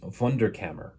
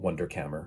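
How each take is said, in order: First: It is said with a German pronunciation. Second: It is said with an American pronunciation. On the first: "I'm going to try once the proper pronunciation" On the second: "I'm just going to Americanize it after that"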